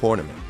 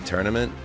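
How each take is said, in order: First: The first syllable sounds like 'tor'. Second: The first syllable sounds like 'tur'. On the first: The speaker calls it wrong. "how I really want to say it is tournament" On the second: The speaker calls it right. "I self-corrected, and now I say tournament"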